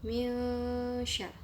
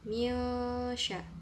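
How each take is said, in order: The two takes are said the same way.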